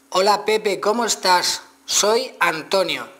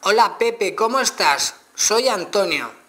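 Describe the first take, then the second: First: Higher and louder, slowly articulated for the phone; loud clear dictation. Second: Higher and louder again, words slowly spaced; louder retry dictation. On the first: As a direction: speak up clearly to the voice search. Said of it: "no he vocalizado mejor bien". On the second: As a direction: repeat it loudly so the phone gets it. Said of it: "vamos a verlo otra vez". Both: Shown as a demonstration.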